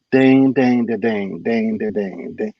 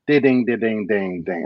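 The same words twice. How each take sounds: First: Steady chanted dings, sinking lower; imitated ride cymbal. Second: Sung-out ride pattern dings, dropping off; imitated ride cymbal. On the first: Shown as a demonstration. Teacher corrects the drummer's ride pattern, steady imitated dings. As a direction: demonstrate an unchanging ride pattern by mouth. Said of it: "I said, "No". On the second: Drummer plays the eighth measure to the teacher, imitated cymbal dings. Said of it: "They get to the eighth measure".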